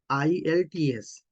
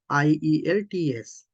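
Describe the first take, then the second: First: The letters are spelled with the E left out. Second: Each letter is spelled out separately. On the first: "They don't uh, use E" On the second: "you can pronounce as it is"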